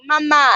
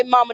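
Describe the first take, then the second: First: Put-on mama said as mah-MAH with an open a at the end, African accent; imitating the kids' African-accented Mama. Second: Said in the usual way. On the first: Mother imitating the kids calling her Mama in an African accent. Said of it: "a little African accent". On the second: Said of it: "they don't say mama".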